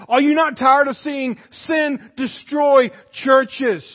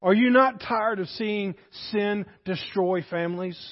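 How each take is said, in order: First: Rising preached shout. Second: Said in the usual way. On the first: Real, not acted. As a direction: preach it harder the second time. Preacher repeats question, building.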